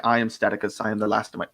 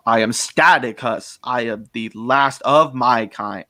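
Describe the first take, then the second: First: Said in the usual way. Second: Slow, heavily emphasised alien villain; grand, slow character declaration; Staticus. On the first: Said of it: "and I'm like". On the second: Shown as a demonstration. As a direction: draw out each word, stressing "Staticus" and "last". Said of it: "I recorded that where it's like".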